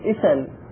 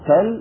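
First: The word starts with an initial 'i' vowel. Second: The word starts directly with the s sound. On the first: This is the form the rule would predict. "المفروض إيش يقولون؟ إسل" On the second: This is the form actually used. "لكنهم قالوا سل"

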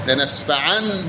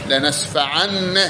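Both takes have the same delivery.

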